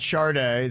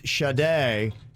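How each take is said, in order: First: The name is said with an R sound. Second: The name is said without an R sound. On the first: The speaker calls it wrong. "not [name]. There is no R" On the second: The speaker calls it right. "please pronounce it right. It's Sade"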